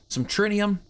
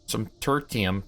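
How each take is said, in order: First: The word is said with an n sound: Trinium. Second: The word is said with a t sound: Tertium. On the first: The speaker calls it wrong. "I've been saying that wrong the whole time" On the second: The speaker calls it right.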